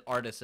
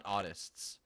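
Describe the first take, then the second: First: "artists" pronounced distinctly, as AR-tists; clear R in artists. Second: "artists" with an AW opening and no R; autists, not artists. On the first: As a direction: say "artists" with the R sounded. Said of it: "make sure that he said artists and not". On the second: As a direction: say "artists" as AW-tists. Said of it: "said artists and not artists". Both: Shown as a demonstration.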